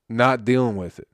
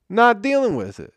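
First: Said in the usual way. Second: Much higher, louder outburst; exasperated shout. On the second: Acted. Comic erupting at podcast listeners, exasperated shout. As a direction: blow up on the repeat. Comic rant, repeated refusal line.

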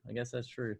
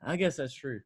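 First: I guess that's true said much softer, like an afterthought to yourself; softer repeat. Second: Said in the usual way. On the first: Real, not acted. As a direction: drop the repeat to a muttered concession.

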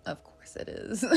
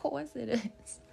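First: A sly whisper in a put-on accent. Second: Laughing put-on accent. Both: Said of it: "That is not my natural accent".

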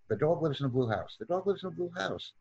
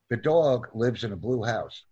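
First: Quick, softer practice repetition; fast reading drill; sped-up reading. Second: Said in the usual way. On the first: Shown as a demonstration. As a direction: run the sentence together rapidly. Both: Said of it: "increase our speed when reading".

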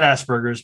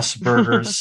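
First: The mistaken "Asperger's", punched as ASS-burgers; rejected pronunciation. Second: "Asperger's" as Hans Asperger said it, OSS-burger; "Asperger's" pronounced OSS-burgers; original name pronunciation. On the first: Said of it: "not Asperger's". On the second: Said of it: "pronounced his name as Asperger". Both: Shown as a demonstration.

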